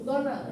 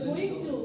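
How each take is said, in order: First: The words are blended into one reduced word. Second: Both words are said fully and separately.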